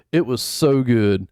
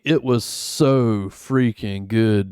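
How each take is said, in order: First: Said in the usual way. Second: "so freaking good" slowed and drawn out; emphatic praise. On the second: Real, not acted. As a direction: lean long and slow on "so". Repeats praise with more emphasis.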